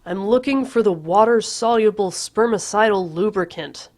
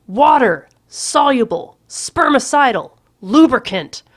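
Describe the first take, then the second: First: Calling back. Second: Loud, slow, higher shout with every word hammered; Water-soluble spermicidal lubricant bellowed slowly. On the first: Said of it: "I call back". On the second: Patrick shouting the word at Courtney, loud and slow. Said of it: "I'm shouting this". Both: A narrator's reading.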